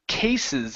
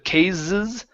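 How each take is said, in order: First: The middle consonant is an unvoiced s. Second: The middle consonant is a voiced z. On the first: The speaker calls it right. "this is going to be an unvoiced S" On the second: The speaker calls it wrong. "with a Z"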